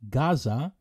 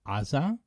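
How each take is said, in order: First: It is said the English way, as Gaza. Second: It is said the Hebrew way, as Aza. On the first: "the English Gaza" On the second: "in Hebrew, we pronounce it Aza"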